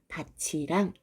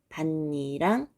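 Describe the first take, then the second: First: It is said with a ch sound. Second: It is said with a doubled n sound. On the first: It is the word for field followed by a particle. "구개음을 적용해서 밭이랑 이렇게 발음을 하고요" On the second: It is the noun meaning a raised ridge in a field. "밭니랑 밭니랑 요렇게 발음을 해줘야 됩니다"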